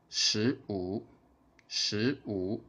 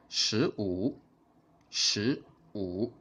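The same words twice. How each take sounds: The two takes are said the same way.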